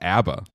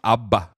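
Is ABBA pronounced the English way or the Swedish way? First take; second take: English; Swedish. First: The name is said the usual English way. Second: The name is said the Swedish way. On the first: The speaker calls it wrong. "it's not pronounced ABBA" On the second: The speaker calls it right. "It's pronounced ABBA"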